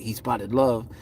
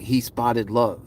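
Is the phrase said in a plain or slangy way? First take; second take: slangy; plain. First: The phrase is said in a casual, slangy way. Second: The phrase is said in a plain, careful way. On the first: "if you say it in a little slangy way" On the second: "they left out the S"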